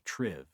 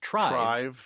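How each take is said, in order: First: The vowel sounds like the one in live. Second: The vowel sounds like the one in tribe. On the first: The speaker calls it right. "they actually want you to pronounce it Triv" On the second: The speaker calls it wrong. "it's probably pronounced trive, because we also think of tribe"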